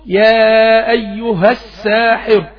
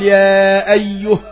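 First: The h carries a short vowel linking onward. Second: The word ends on a silent, vowelless h. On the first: The reader joins it to the next word. "طب أوصل يا أيها الساحر" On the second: The reader stops on this word. "لو عاوز أقف أقول يا أيه أيه، يبقى أنا وقفت بالهاء الساكنة"

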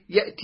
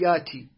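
First: The word has a glottal stop after the first syllable. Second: The glottal stop is dropped and the vowel lengthened. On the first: "يسهلون الهمزة، يعني يقول مثلا يأتي" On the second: "يقول ياتي"

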